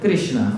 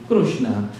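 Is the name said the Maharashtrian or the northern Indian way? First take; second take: northern Indian; Maharashtrian. First: The name is said with a northern Indian pronunciation. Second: The name is said with a Maharashtrian pronunciation. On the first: "if you are from the no- northern part of India" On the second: "If you are from Maharashtra, like me"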